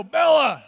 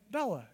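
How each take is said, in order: First: Loud, higher scolding of a dog; stern scolding call. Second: Gentle, easy call to a dog; kindly call. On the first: Owner scolding his dog Bella, loud and stern. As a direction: call out sharply to shame the dog. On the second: Owner calling his dog Bella, gentle and kindly. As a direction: call the dog softly and fondly. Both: Shown as a demonstration. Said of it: "it's all about tone of voice".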